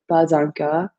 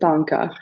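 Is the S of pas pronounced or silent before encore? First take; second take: pronounced; silent. First: The S of pas links into encore. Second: The S of pas stays silent before encore. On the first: This is how some regions say it. "they will pronounce this S and make a liaison" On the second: This is how other places, like Paris, say it. "other places will say pas encore"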